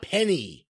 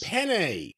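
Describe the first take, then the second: First: The word ends with an 'ee' vowel sound. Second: The word ends with an 'eh' vowel sound. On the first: The speaker calls it wrong. "not penny" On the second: The speaker calls it right.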